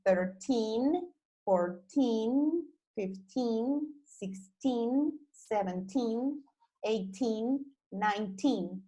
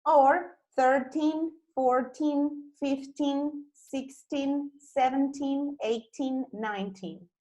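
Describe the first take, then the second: First: Put-on each teen said with a rising end; teen numbers. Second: Put-on slower, higher, with an American r and a nasal teen; American teen numbers. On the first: Teacher reads the teen numbers one by one. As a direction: stress the teen in thirteen to nineteen. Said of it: "Vamos a mirar la pronunciación". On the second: Teacher gives the American version of the teens. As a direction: draw out the teen in thirteen through nineteen. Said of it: "Both pronunciations are correct as long as you emphasize on the teen". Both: Shown as a demonstration.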